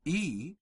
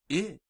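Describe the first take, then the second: First: I said as a long "ee"; drawn-out "ee" for I; long Latin I. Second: I said as a short "ih"; short Latin I. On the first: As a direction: say I like English long E. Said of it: "the way we pronounce our long E". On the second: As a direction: say I as a brief ih. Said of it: "The short vowels are as follows". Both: Shown as a demonstration.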